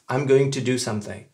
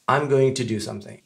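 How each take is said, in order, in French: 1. 'Going to' se prononce en entier. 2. 'Going to' se prononce en entier.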